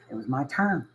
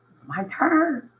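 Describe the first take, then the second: First: Said in the usual way. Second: Much higher and slower, drawn out; proud emphasis. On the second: Real, not acted. Telling listeners his turn to give back, proud emphasis. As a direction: lift it up, savoring the moment. Repeats the line, then lifts it.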